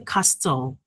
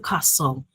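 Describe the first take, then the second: First: The T sound is pronounced in the middle. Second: The T sound is left out entirely. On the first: The speaker calls it wrong. "We don't say castle" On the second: The speaker calls it right. "but we say castle. The T is silent"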